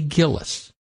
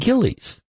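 First: The last syllable has a short vowel. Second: The last syllable has a long E sound. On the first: "You would say Gillis. You would be wrong" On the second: "Most people call it Gillies with a long E"

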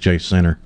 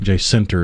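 First: The name is said without the added T sound. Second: The name is said with an added T sound. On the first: The speaker calls it right. "It's Jacinta" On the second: The speaker calls it wrong. "You're adding a T in there. Jacinta is what you're saying"

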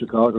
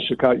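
First: It is said with a local Chicago pronunciation. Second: It is said with a non-local pronunciation. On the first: The speaker is from Chicago. The speaker calls it right. "everybody who's from Chicago says Chicago" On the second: The speaker is not from Chicago. The speaker calls it wrong. "not Chicago"

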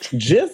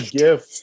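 First: It begins with a soft G sound. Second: It begins with a hard G sound. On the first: The speaker calls it wrong. "A soft G? Get out of here" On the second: The speaker calls it right. "I say GIF"

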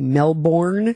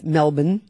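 First: It is pronounced the American way. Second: It is pronounced the local way. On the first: The speaker calls it wrong. "We as Americans say Melbourne" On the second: The speaker calls it right. "It's Melbourne"

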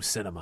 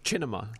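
First: It is said with an English pronunciation. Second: It is said with an Italian pronunciation.

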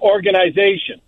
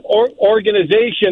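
First: It is said the hockey way. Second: It is said the American way. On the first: "Or you could say the hockey way" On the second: "That's the American way"

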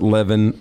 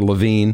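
First: The last syllable sounds like 'vin'. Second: The last syllable sounds like 'veen'. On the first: "people would want to pronounce it Levin" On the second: "or Levine"

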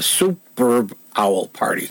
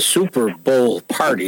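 First: The b sound ends the first word. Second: The b sound starts the second word. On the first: It names a party about owls. "You got to get the B at the end of super" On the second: It names the football game party. "instead of being the Super Bowl party"

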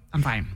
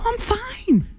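First: The voice sounds clipped and strained. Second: The voice sounds light and happy. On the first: The speaker is actually not fine. "It's always, fine" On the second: The speaker is genuinely happy. "you never say it in a way that somebody would think, like, oh, okay, you're happy when you say it"

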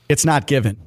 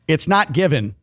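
First: The words run together in one smooth flow. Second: The words are said separately, not flowing together. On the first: The speaker calls it right. "That was closer" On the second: The speaker calls it wrong. "Same problem as last time"

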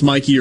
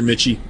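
First: The middle consonant is a 'k' sound. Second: The middle consonant is a 'ch' sound. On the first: The speaker calls it wrong. "I can't ever remember if it's Mikey or Mitchie" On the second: The speaker calls it right. "It is Mitchie. Sorry for messing that up"

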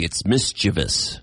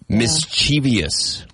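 First: It has no extra sound after the v. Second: It has an extra 'ee' sound after the v. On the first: The speaker calls it right. "There's no I after the V" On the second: The speaker calls it wrong. "That's incorrect"

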